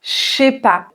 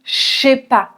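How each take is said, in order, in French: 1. La phrase est raccourcie, en supprimant des sons. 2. La phrase est raccourcie, en supprimant des sons.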